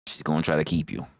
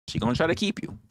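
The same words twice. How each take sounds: First: Said low and heavy, lower than her usual voice; low take. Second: Said high, rising on keep; high take. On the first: A low warning to the wrestler. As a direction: drop the pitch on try. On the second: A high teasing warning to the wrestler. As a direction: lift it up and stretch keep. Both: Acted. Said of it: "repeats line in new voice".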